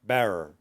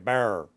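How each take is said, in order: The two takes are said the same way.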